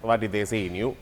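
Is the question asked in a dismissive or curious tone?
dismissive. It sounds dismissive and doubting.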